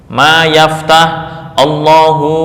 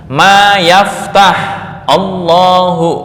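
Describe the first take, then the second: No difference in how they are said.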